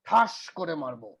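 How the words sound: It sounds like a fairly serious threat.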